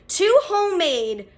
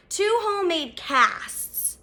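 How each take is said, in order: First: Said in the usual way. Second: "two" hit high, "homemade casts" drawn out slowly; slow, insistent stress on "two". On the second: Shown as a demonstration. Telling friends about a stranger's homemade casts, stressing "two" slowly. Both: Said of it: "and I'm not lying".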